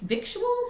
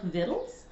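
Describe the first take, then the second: First: The word is said with a 'k' sound. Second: The word is said with no 'k' sound. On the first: The speaker calls it wrong. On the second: The speaker calls it right.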